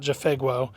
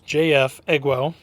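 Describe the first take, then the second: First: The start is blended into one word. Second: The first letters are said separately. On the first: The speaker calls it wrong. "It's not Jafegwo" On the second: The speaker calls it right. "it's J F Egwo"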